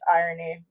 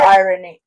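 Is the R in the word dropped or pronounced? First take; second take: dropped; pronounced. First: The R sound is dropped from the word. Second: The R sound is pronounced in the word. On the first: The speaker calls it right. "you're not supposed to pronounce the R" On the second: The speaker calls it wrong. "Why did I just pronounce the R?"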